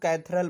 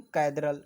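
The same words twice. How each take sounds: First: "कैथेड्रल" कुछ लोगों वाले ढंग से, 'थ' की ध्वनि के साथ; "कैथेड्रल" में 'द' की जगह 'थ' बोलकर दिखाएँ; दूसरों का उच्चारण. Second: "कैथेड्रल" को 'कैदरल' जैसा, 'द' की ध्वनि से; "कैथेड्रल" में 'थ' की जगह नरम 'द' बोलें; सही उच्चारण. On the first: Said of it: "कुछ लोग कैथेड्रल बोलते हैं". ("कैथेड्रल" का 'थ' वाला वैकल्पिक उच्चारण) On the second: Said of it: "correct pronunciation है". ("कैथेड्रल" का 'द' वाला उच्चारण सिखाते हुए) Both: Shown as a demonstration.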